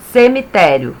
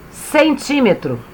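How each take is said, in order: First: "Cemitério" read correctly as se-mi-TÉ-rio; careful corrected "Cemitério"; "Cemitério" with stress on -té-; corrected word. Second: "Centímetro" read by mistake for cemitério, stress on -tí-; misreading the word as "Centímetro"; "Centímetro" slipped out in place of cemitério. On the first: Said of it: "é cemitério". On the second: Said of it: "tia [name] leu errado". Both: Shown as a demonstration.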